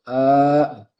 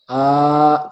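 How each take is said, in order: First: The vowel is said with the mouth too closed. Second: The vowel is said with the mouth too wide. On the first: "jangan terlalu apa nutup a" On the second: "jangan terlalu a ya, jangan terlalu lebar"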